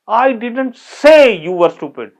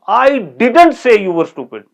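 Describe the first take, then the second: First: The word say carries the stress. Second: The word didn't carries the stress. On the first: It was thought but not said aloud. "मुझे पता है पर मैंने कहा नहीं।" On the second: It was never said at all. "मैंने कहा ही नहीं। It's a disclaimer"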